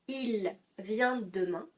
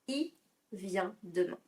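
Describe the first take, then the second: First: The pronoun il keeps its L sound. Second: The pronoun is said without its L sound. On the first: "si je dis il vient demain" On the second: "j'enlève le son L, il me reste I vient demain"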